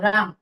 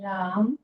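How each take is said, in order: First: The word is said quickly. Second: The word is said slowly.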